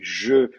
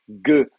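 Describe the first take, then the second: First: The consonant is a soft zh sound. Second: The consonant is a hard g sound. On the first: This is how it is said in Syria. "va se prononcer je en arabe en Syrie" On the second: This is how it is said in Egypt. "va se prononcer ge en, en Égypte"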